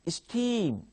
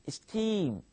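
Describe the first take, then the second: The two takes are said the same way.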